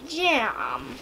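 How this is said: It is said in a British-sounding accent.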